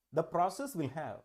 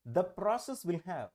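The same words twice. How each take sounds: The two takes are said the same way.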